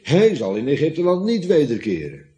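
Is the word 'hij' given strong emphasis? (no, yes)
yes. The word 'hij' carries strong contrastive emphasis. The speaker calls it right. "maar je zou moeten lezen"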